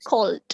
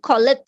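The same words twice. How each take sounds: First: The ending is a plain d sound. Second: The ending is not a plain d sound. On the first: The speaker calls it right. "It's it should be cold" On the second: The speaker calls it wrong. "Kan biasanya mungkin cold gitu ya. Well, it's not cold"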